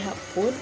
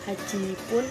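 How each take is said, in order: First: The number shortens into a doubled consonant before pun. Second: The full number is said before pun.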